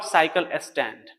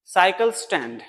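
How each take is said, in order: First: साइकिल स्टैंड with an extra vowel, saikile stand; साइकिल स्टैंड split wrongly; wrong pronunciation. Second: साइकिल स्टैंड with the s joined to साइकिल; साइकिल स्टैंड as saikils-tand; correct pronunciation. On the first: Teacher correcting the common mistake. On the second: Teacher modelling the right way. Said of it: "not साइकिल स्टैंड". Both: Shown as a demonstration.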